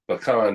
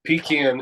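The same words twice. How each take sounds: First: It is said the way Texans say it. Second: It is said the way Georgians say it. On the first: The speaker is from Texas. "Pecan is Texas" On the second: The speaker is from Georgia. "Pecan is Georgia"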